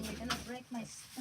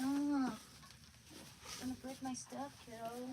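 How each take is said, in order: First: Said in the usual way. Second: Slow, sing-song mild scold; slow, gentle reproach to the dog; drawn-out scolding. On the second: Real, not acted. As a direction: stretch it out like scolding a puppy.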